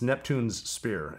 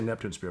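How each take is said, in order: First: Neptune ends with an s sound before Spear. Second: Neptune has no s sound before Spear. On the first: The speaker calls it right. "It's Neptune's Spear, as in King Neptune's Spear" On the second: The speaker calls it wrong. "People say Neptune Spear"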